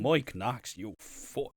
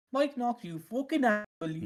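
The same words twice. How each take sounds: First: Irish take on the farmer line; mock Irish. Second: Higher Irish farmer voice; mock Irish farmer. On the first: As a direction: say it in a broad Irish lilt. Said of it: "that's just Irish now". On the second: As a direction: try the farmer line. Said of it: "I need to hear that in the farmer voice".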